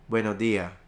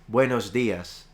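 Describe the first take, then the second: First: The final S sound is dropped. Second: The final S sound is pronounced. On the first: "you could drop the S" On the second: "you could pronounce the S"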